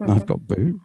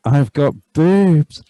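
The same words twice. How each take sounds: First: Said in the usual way. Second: Slow and louder, savouring "boobs"; slow, loud gleeful "I've got boobs"; mock excited. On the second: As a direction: stretch "boobs" out with loud glee. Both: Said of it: "repeated takes of same line".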